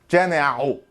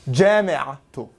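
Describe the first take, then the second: First: The final vowel follows with no t sound. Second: A t sound comes before the final vowel. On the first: The speaker calls it wrong. "So you can't say jami'a'u. Sounds weird, doesn't it?" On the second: The speaker calls it right. "we need to untie that ta, and then we hear it again"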